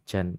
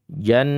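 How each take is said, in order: First: The syllable ends with a breathy, hissing release. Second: The syllable is fully voiced with no hiss. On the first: The speaker calls it wrong. "Kalau hams memang begitu bacanya" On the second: The speaker calls it right. "dia masuk jahar"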